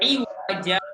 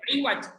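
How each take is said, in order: First: The word ends with a long vowel sound. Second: The word ends with a bare consonant sound. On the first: The speaker calls it right. "Harusnya seperti itu" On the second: The speaker calls it wrong. "bukan qayyim atau iwaj. Salah"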